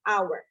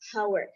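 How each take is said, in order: First: The word begins with a vowel, no h sound. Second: The word begins with an audible h sound. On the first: The speaker calls it right. "we should use it using silent H, so just hour" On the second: The speaker calls it wrong. "I often uh, heard uh, Indonesians um, pr- pronounce this word as hour"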